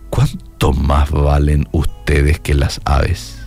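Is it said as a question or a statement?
question. It is said with a questioning tune.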